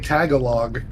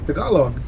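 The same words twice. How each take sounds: First: It is pronounced with a Midwestern American accent. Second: It is pronounced the Filipino way.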